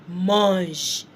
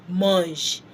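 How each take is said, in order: No difference in how they are said.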